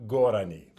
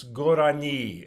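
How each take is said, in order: First: "gorani" stressed early, on "go"; wrong stress. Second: "gorani" with the stress on "ni"; stress on last syllable. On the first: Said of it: "it's not gorani". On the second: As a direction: put the weight on the end of "gorani". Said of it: "the stress, uh, falls on the last syllable". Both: Shown as a demonstration.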